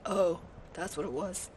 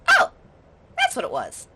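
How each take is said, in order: First: It is said in a very deep voice. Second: It is said in a normal voice.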